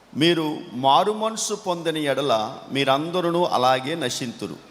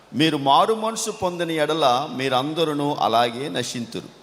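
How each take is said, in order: The two takes are said the same way.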